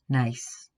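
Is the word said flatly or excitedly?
flatly. The word is said flatly with little emotion. The person is not really impressed. "someone says that to you, you have to wonder what"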